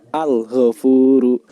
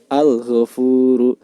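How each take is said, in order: Both takes have the same delivery.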